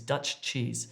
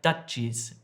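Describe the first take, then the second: First: Both ch sounds are said separately. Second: The two ch sounds merge into one. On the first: The speaker calls it right. "we distinguish between the two" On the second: The speaker calls it wrong. "it sounds like Dutchies"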